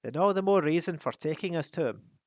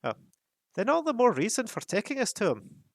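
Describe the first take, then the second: First: Firm, louder insistence; Thorin's line. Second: Put-on much higher, louder impatient young dwarf; Fili bursting in. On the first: First take before reassigning to Fili. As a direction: press the point firmly. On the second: Fili impatient with the captain, higher and louder. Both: A narrator's reading. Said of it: "burst in Fili".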